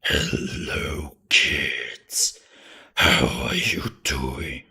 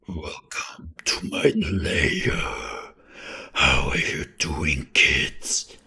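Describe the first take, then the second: First: Slow, louder spooky whisper; hard creepy voice. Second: Slow, louder whispered horror voice; hard creepy voice. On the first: Streamer demoing the strained creepy voice again, slow whisper. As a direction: whisper it like a lurking villain. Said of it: "Being like". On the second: Streamer demoing the harder voice to viewers, slow spooky whisper. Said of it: "The hard voice would be like". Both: Shown as a demonstration.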